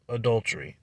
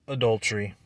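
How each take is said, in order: Both takes have the same delivery.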